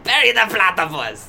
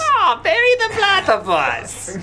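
First: Loud, hammed-up Doofenshmirtz German accent; bad German accent. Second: High, slow, shouted German cartoon villain accent. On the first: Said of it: "German accent from Doofenshmirtz". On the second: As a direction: belt it as a hammy German villain. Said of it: "That's better".

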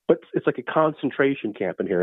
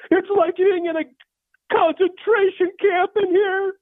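First: Said in the usual way. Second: High-pitched, drawn-out wail; complaining mom. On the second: Acted. Mom complaining about the heat from another room, high wail. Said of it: "my mom says from the other room".

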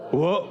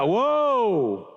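First: Said in the usual way. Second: Long WHOA, pitch swelling up and falling; drawn-out whoa. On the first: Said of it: "This is better". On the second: Shown as a demonstration. Preacher coaching the congregation on the first word, drawn-out whoa. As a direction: stretch WHOA right out, big and sweeping. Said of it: "I wanna start talking like that".

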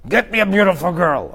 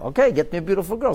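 First: A hint of a crude king barking an order; crude demand. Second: Said in the usual way. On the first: King demanding a beautiful girl from servants, lightly voiced crude order. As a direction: toss off the order bluntly, a touch higher. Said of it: "How did they express himself?".

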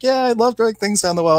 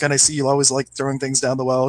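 First: Higher and louder, an eager delighted yes; excited agreement. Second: Said in the usual way. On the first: Retold or imitated. Farm woman happily confirming to the psychic reader, excited. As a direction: gush back at her like it's a fond memory.

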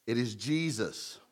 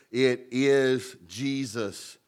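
First: "It is Jesus" repeated softer, falling; soft echo. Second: "It is Jesus" drawn out slowly, each word weighted; slow emphatic declaration. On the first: Preacher repeating the answer, softer and settled. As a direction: echo it softly. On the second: Preacher naming Jesus as the answer, slow and weighted. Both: Shown as a demonstration.

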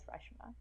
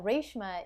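First: Reshma said as RUSH-ma, short vowel; identity pronunciation. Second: Reshma said as RAYSH-ma; family pronunciation. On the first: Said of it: "I identify as Reshma". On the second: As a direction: say Reshma with a long "ay", RAYSH-muh. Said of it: "another part of my identity". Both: Shown as a demonstration.

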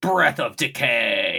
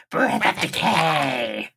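First: Slow, overly bassy monster attack call; too much bass. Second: Very slow, strange attack call; odd monster voice. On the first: Podcaster imitating Raremon's attack for co-host, overdone bass. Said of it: "I put way too much bass in that voice". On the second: Podcaster correcting the Raremon impression, very odd drawn-out voice. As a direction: imitate an odd monster, dragging out each word. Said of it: "It's very odd". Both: Retold or imitated.

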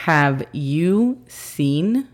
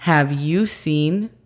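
First: Very slow careful English demo; teacher model, very slow; slow model phrase. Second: Slow careful English repeat. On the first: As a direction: stretch each word clearly. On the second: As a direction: say it again slowly. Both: Shown as a demonstration. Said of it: "pero sería".

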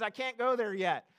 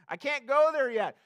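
First: Said in the usual way. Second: Louder, punched repeat of I can't go there yet; emphatic repeat. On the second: Shown as a demonstration. Preacher driving home a point to the church, louder. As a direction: hit it harder the second time.

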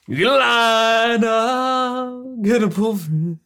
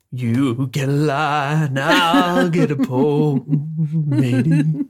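First: Slow, high sung line; singing Neville. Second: Neville impression. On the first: Retold or imitated. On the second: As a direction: drawl it like a salty sailor. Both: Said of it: "variation of Neville going".

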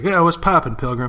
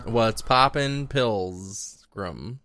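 First: Higher, louder cowboy greeting; quick mock cowboy hello; John Wayne. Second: Slow cowboy impression; drawn-out film-cowboy greeting; John Wayne. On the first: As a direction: lightly play a cowboy hailing a stranger. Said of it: "he walks into a new town and he's like". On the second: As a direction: draw it out like a movie cowboy, falling away. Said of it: "He always used to talk like this".

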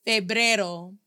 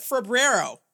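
First: Febrero in clean Spanish, feh-BREH-ro with a tapped r. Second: Febrero said the English way, fuh-BRAIR-oh with an American r; mock the gringo Febrero with English r and schwa; anglicized febrero. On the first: Shown as a demonstration. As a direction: model Febrero the native way, crisp open vowels. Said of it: "Pronounce the word February, the month February with me". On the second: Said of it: "we do not say February in Spanish as febrero".

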